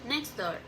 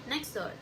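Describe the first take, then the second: The two takes are said the same way.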